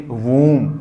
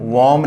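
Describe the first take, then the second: First: वूम with a long oo; correct long vowel. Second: वॉम with an open aw instead of oo; wrong vowel. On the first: Teacher gives the correct sound, long-oo वूम. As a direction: round and hold the ऊ in वूम. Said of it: "इसको क्या बोलेंगे?". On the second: Teacher rejects the wrong reading, open-vowel वॉम. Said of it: "वॉम नहीं". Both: Shown as a demonstration.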